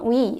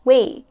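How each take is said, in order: First: The syllable is said with an 'ee' vowel. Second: The syllable is said with an 'ay' vowel. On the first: The speaker calls it wrong. "it's not we" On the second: The speaker calls it right. "it's way"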